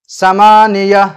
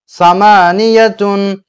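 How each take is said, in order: First: The word ends with a soft '-ah' sound. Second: The word ends with a nasal '-tun' sound. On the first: The reader stops at this word. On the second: The reading continues without stopping.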